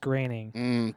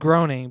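First: The name is said differently from its look. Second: The name is read the way it looks. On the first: The speaker calls it right. "but it's pronounced Groening" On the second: The speaker calls it wrong. "it's spelled Groening"

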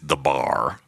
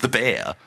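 First: The vowel is drawled like 'ar'. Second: The vowel is said like 'air'. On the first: "But how he pronounces it is the bar" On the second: "It's the bear"

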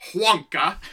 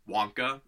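First: An H sound is added at the start. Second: The name is said plainly, with nothing added. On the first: "with an H at the beginning" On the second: "the traditional Wonka, most people pronounce his last name, how it's spelled"

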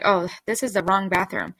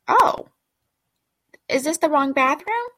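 First: It is said in a nasty, mocking tone. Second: It is said in a polite, puzzled tone.

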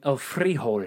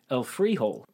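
First: Frijol is said with a more Spanish sound. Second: Frijol sounds like the English words 'free hole'. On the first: The speaker calls it right. "add a little zhuzh to this" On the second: The speaker calls it wrong. "it just sounds like free hole"

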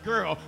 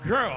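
First: It is said weakly, without force. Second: It is said forcefully, with authority. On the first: The speaker calls it wrong. "Not girl" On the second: The speaker calls it right. "say it with some authority"

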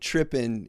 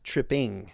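First: The ending is a clipped -in' without the g sound. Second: The ending is a full -ing with the g sound. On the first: "instead of saying trippin'" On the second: "he says tripping"

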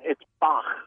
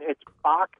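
First: Bach is said with a German pronunciation. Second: Bach is said with an American pronunciation.

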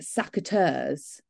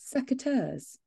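First: It sounds like the phrase 'sack of turds'. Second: It is said with the standard pronunciation. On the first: The speaker calls it wrong. "you were pronouncing it secateurs" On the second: The speaker calls it right. "And now, secateurs"

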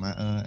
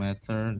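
First: The middle t is a glottal stop. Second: The middle t is a clear t sound.

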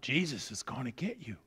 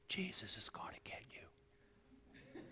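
First: It is said very loudly. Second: It is said softly.

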